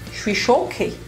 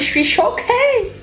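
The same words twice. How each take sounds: First: It is said in the speaker's ordinary voice. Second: It is said in an imitated, put-on voice.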